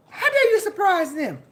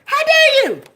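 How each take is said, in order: First: Said in the usual way. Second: Higher louder indignant How dare; loud rebuke. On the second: Real, not acted. Scolding her enemies, a loud high How dare you. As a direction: bark the rebuke in outrage.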